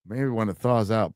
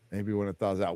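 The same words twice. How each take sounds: First: Said in the usual way. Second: Much softer echo, "thaws" falling; quiet repeat. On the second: Real, not acted. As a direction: say it again under your breath. Repeats reply to himself.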